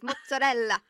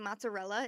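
First: The word is said with an Italian pronunciation. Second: The word is said with an American pronunciation. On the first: The speaker calls it right. "instead of mozzarella" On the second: The speaker calls it wrong. "I would just get reamed if I say mozzarella"

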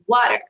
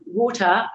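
First: The word is said in an American accent. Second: The word is said in a British accent. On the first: "I'd say water, you know, Florida" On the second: "instead of water"

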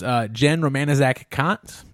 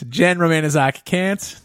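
First: Kant sounds like the philosopher's name. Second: Kant does not sound like the philosopher's name. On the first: The speaker calls it wrong. "I said it wrong" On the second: The speaker calls it right. "not like the philosopher"

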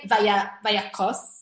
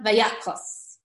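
First: The stress falls on the last syllable. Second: The stress falls near the start of the word. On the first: The speaker calls it wrong. "notice how I didn't say Vayakos" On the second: The speaker calls it right. "I emphasized the beginning"

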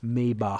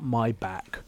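First: The final sound is rasped in the throat. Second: The final sound is a hard k. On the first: The speaker calls it right. "Like you got something in the back of your throat" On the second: The speaker calls it wrong. "Not Maybach"

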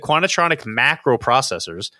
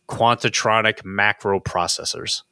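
First: It is said at a normal reading pace. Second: It is said very slowly.

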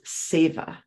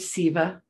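First: The name is said with Sanskrit pronunciation. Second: The name is said in an anglicized way. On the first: "in Sanskrit, again, we're going back to pronunciation. Her name is Seva" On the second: "And I say her name Siva"

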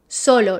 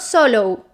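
First: The O vowel is short and sharp. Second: The O vowel is long and rounded. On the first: The speaker calls it right. "Sharp and short" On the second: The speaker calls it wrong.

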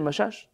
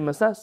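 First: The name is said with 'sh' sounds. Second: The name is said with 's' sounds. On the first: Some people read the name this way. "Some say Mashash" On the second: Other people read the name this way. "some say Masas"

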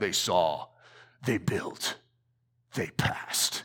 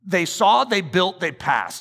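First: It is said in a deep, dramatic voice. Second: It is said in a normal speaking voice.

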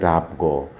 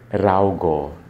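First: The middle consonant is a b sound. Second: The middle consonant is a v sound. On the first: This is the Karwar Konkani form. "In Karwar Konkani, you will replace it with B" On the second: This is the form outside Karwar Konkani. "say V"

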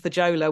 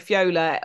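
First: The J is said as English J. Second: The J is not said as English J. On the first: The speaker calls it wrong. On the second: The speaker calls it right.

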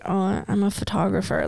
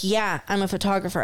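First: It is mumbled quietly, sounding embarrassed. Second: It is said openly, sounding confident.

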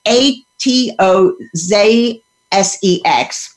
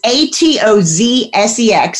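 First: The letter Z is said the British way, zed. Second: The letter Z is said the American way, zee.

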